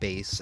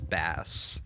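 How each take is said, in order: First: The vowel rhymes with face. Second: The vowel rhymes with mass. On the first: It names the musical instrument. The speaker calls it right. "I always accidentally pronounced bass" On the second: It names the fish. The speaker calls it wrong. "as bass"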